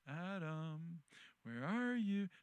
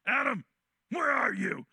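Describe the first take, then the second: First: The voice sounds gentle and comforting. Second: The voice sounds harsh and threatening. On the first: The caller wants them to come out without fear. The speaker calls it right. "the Lord's tone of voice must have been very comforting" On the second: The caller would frighten them into running farther. The speaker calls it wrong. "Not like, ... I don't think it was like that"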